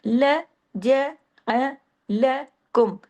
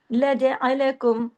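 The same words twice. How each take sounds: First: ला जा अलकुम very slowly, a pause after each syllable. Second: ला जा अलकुम run together, vowels kept short; measured, connected ला जा अलकुम; joined short syllables. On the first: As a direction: spell out ला जा अलकुम beat by beat. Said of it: "कैसे?". (ला जा अलकुम को टुकड़ों में, रुक-रुक कर) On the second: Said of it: "इस तरीके से प्रैक्टिस कीजिएगा". (ला जा अलकुम मिलाकर, बिना खींचे) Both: Shown as a demonstration.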